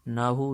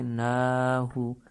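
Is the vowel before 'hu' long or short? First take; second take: short; long. First: The vowel before 'hu' is short. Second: The vowel before 'hu' is held long. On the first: The speaker calls it wrong. "नाहु नहीं है" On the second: The speaker calls it right. "बल्कि नाहु। एक सेकंड के लिए लंबा करेंगे।"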